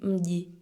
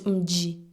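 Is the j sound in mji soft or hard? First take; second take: soft; hard. First: The j sound is soft, Tanzanian style. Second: The j sound is hard and stressed.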